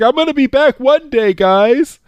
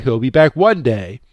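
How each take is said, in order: First: Much higher, quick, eager character voice; excited promise. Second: Said in the usual way. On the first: Retold or imitated. Roy calling back to the villagers, high and eager. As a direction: blurt it out like a giddy kid. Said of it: "He's like". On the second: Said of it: "he's not even giving a time frame".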